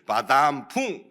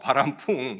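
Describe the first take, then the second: First: The second syllable starts with a d. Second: The second syllable starts with a flapped r. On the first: The speaker calls it wrong. "혀가 좀 짧았어요... 바담풍 한 거예요" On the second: The speaker calls it right. "바람풍이잖아요"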